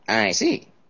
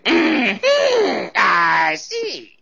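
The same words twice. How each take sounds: First: It is said at a fairly soft volume. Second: It is said at the loudest volume. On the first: The statement might be true but is probably a lie. "it's possible it could be true, but it's probably a lie" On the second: The statement is seen as a blatant lie. "she just thought it was a blatant lie"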